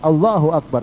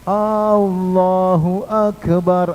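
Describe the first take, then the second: First: The opening vowel is kept short. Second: The opening vowel is drawn out long. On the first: It states that God is great. The speaker calls it right. "Harusnya Allahu Akbar" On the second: It asks whether God is great. The speaker calls it wrong. "hanya panjang, itu juga nggak boleh"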